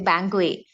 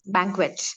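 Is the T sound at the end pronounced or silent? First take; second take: silent; pronounced. First: The final T sound is left silent. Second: The final T sound is clearly pronounced. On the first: The speaker calls it wrong. "Some people think that it is uh, T is silent and they say banquet" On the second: The speaker calls it right. "it's banquet"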